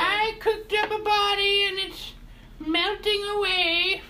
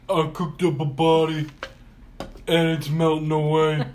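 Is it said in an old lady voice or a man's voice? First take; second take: old lady; man's voice. First: It is said in an old lady voice. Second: It is said in a middle-aged man's voice.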